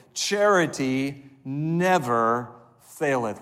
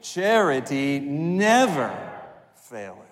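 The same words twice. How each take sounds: First: Said in the usual way. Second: Never leaned on, drawn out slow; slow recital with never stressed. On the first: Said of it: "Would you say those words with me". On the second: Shown as a demonstration. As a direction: hit the word never. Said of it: "I want you to emphasize never".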